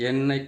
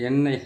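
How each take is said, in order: Both takes have the same delivery.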